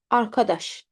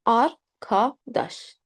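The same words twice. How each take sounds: First: Said in the usual way. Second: "Arkadaş" very slowly as ar, ka, daş; slow teaching demo of "Arkadaş"; syllable by syllable. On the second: Shown as a demonstration. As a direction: break "Arkadaş" into three separate syllables with open a. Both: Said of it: "A always is pronounced".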